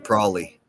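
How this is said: It is said in a Pittsburgh accent.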